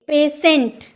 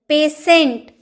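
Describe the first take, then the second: The two takes are said the same way.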